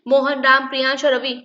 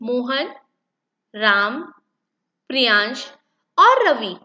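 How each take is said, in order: First: The names run together without short pauses. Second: A short pause follows each name. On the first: The speaker calls it wrong. "ऐसे नहीं ... इस तरीके से नहीं बोला जाएगा" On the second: The speaker calls it right. "कैसे करेंगे हम इस सेंटेंस को रीड"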